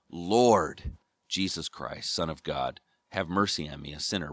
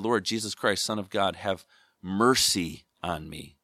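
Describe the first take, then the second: First: The stress is on Lord. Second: The stress is on mercy.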